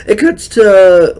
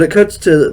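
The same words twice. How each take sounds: First: Voice crack. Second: Said in the usual way. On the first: Real, not acted. Recapping a wrestling segment, voice cracks high. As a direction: voice cracks up high and loud mid-phrase. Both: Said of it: "well, that was a real bad, uh, voice crack".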